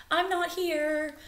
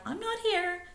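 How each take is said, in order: First: Higher and slow, hushed; higher, slow sly fib; sneaky bird voice. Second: Much higher, softer, stress on not; high, quiet sneaky whisper of a lie; hushed bird fib. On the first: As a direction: pretend you're not there. Bittern's lie, quoted. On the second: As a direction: squeak it out hidden like a stone. Bittern's lie quoted again. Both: Acted.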